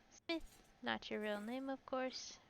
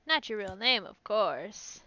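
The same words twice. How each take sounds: First: Soft, tentative "not your real name, of course"; quiet first read. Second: "Not" punched, "course" rising; emphatic reread. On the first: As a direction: test the line under your breath. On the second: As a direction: say it again with conviction, louder. Rereading louder, rising end. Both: Shown as a demonstration.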